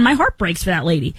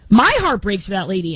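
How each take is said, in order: First: Heartfelt. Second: Saying it again, more feeling on My; heartfelt, repeated. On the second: Telling Taylor about the crying mask wearer, sincerely moved. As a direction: lean into the sympathy the second time. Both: Real, not acted. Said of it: "getting all verklempt here".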